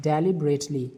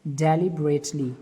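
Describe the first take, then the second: First: Said in the usual way. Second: Slow. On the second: Shown as a demonstration. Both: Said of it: "D E L I B E R A T L Y".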